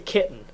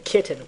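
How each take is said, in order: First: The middle T is dropped, replaced by a catch. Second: The middle T is clearly pronounced. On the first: "we say kitten. We just kind of put an apostrophe instead" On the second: "we don't say kitten"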